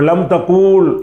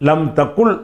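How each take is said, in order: First: The second word has a long vowel. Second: The second word has a short vowel. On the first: The speaker calls it wrong. "லம் தக்கூல் என்று வரும்" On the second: The speaker calls it right. "லம் தக்குல் என்று சொல்லணும்"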